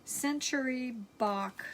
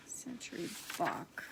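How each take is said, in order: First: Said in the usual way. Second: Whispered under the breath, softer; quiet whisper to herself. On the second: Real, not acted. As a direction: murmur the name to yourself, barely voiced. Repeats the name to herself.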